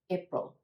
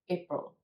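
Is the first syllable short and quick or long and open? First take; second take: short; short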